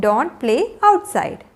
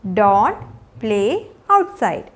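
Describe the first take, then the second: First: Said in the usual way. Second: Slow, with long pauses between words. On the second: Shown as a demonstration. Teacher modelling a rainy-day rule for learners, word by word. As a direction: give each word alone, low at first.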